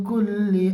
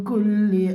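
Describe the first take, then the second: No difference in how they are said.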